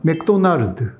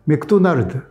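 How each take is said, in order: First: It is said with Korean pronunciation. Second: It is said with Korean pronunciation.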